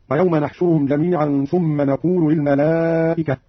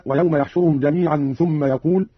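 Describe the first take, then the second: First: نحشرهم and نقول both starting with n; slowly, nun in place of ya in نحشرهم and نقول; nun of majesty. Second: Said in the usual way. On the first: Shown as a demonstration. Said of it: "قرأ قالون بنون العظمة هكذا". (نحشرهم ونقول بنون العظمة) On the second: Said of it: "قرأ قالون بنون العظمة".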